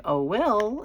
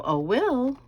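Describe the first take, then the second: First: High call rising at the end; sing-song call. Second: High, drawn-out call with a falling end; sing-song call. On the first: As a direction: call her son again, lilting up. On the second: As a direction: call her son from the kitchen, sing-song. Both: Shown as a demonstration. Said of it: "I have a way of calling him".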